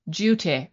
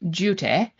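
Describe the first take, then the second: First: It is said in a plain American accent. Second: It is said in a put-on English accent.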